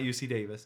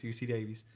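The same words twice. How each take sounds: First: U C Davis said as DAY-vis, the usual way; wrong pronunciation. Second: U C Davies said as DAY-veez with an ee ending; right pronunciation. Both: Shown as a demonstration. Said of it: "It's not U C Davis".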